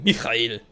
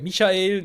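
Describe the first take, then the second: First: The ch in the middle is hard. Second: The ch in the middle is soft. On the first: This is how the Swiss say it. "sagen wir nicht mehr sagen Michael" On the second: This is not how the Swiss say it.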